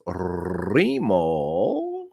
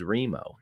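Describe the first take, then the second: First: Put-on old Italian boss answering the phone, long rolled R; Remo. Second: Said in the usual way. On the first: Boss picks up the pizzeria phone, drawn-out Italian greeting. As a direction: roll the R and draw the name out. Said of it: "He always answered the phone like this". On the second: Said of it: "his name was Remo".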